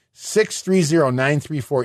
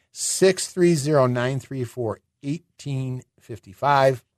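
First: Said in the usual way. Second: "Six three zero, nine three four, eighteen fifty-five" said slowly, each digit spaced; slow and deliberate. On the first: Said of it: "phone number first reading". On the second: Shown as a demonstration. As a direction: slowly spell out the number. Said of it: "phone number repeated slowly".

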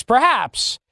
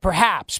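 First: Perhaps drawn out slow and pointed; stressed perhaps. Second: Said in the usual way. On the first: Shown as a demonstration. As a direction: lean on perhaps and stretch it.

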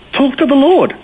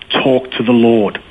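First: Very high-pitched, emphatic command; retold exhortation. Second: Slow, deliberate advice at ordinary pitch; retold measured insistence. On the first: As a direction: imitate a friend urging it, pitched way up. Friend's exhortation, retold on phone. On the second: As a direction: repeat it slowly, letting each word land. Friend repeats exhortation more deliberately.

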